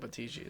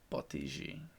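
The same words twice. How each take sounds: First: The name is said plainly, without an accent. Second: The name is said with a foreign accent. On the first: The speaker calls it wrong. "if I don't use the accent, it comes out wrong" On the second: The speaker calls it right. "you always have to use the accent"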